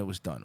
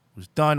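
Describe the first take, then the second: First: Soft, falling "done"; fading. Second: Louder, rising "done"; emphatic. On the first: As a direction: let "done" drop away. Repeated "done" lines, fading. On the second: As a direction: hit "done" with a lift. Repeated "done" lines. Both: Shown as a demonstration.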